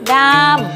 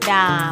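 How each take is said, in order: First: The pitch rises high then falls. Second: The pitch stays low and level. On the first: "ดามไม้โทดาม" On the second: "ดามไม้เอกดาม"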